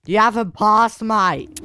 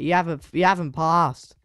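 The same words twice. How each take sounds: First: Higher, louder protest, haven't punched; indignant call. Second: Said in the usual way. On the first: Real, not acted. Gamer repeats to teammate he hasn't passed, louder and higher. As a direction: insist on it now, raising the voice. Arguing with teammate over a pass.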